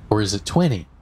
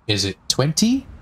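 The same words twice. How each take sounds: First: Twenty with the second T left out, falling at the end; casual "twenty", no second T; T dropped. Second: Twenty with both Ts sounded, rising as a question; careful "twenty", T fully released; T pronounced. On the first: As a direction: say "twenty" lazily as "twenny". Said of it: "one, on one and not the other". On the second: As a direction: say "twenty" with a crisp second T. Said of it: "you emphasized the T". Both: Retold or imitated.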